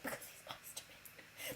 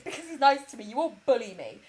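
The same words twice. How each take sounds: First: Barely voiced, very soft whisper; mock meek reply. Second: Mock defensive reply. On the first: Mum explaining why she listens to him, whispered. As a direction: whisper it like a small sulk. Imitating mum's reply, under breath. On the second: Mum defending herself against bullying daughter, mock defensive. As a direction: say it out as a pointed retort. Mum's reply repeated out loud.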